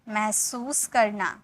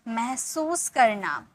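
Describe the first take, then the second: No difference in how they are said.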